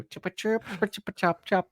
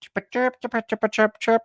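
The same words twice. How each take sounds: First: High, quiet bird chirps; high, soft mock birdsong; silly chirping. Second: Very high bird chirps; very high, playful chirping; silly chirping. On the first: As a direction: chirp away the awkward moment. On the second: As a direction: chirp to dodge the boss. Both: Shown as a demonstration. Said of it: "I'm just gonna go".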